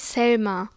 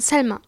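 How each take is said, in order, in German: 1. Der Name beginnt mit einem stimmhaften, summenden s. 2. Der Name beginnt mit einem scharfen, zischenden s. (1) "Nicht Selma" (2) "Selma mit einem scharfen S"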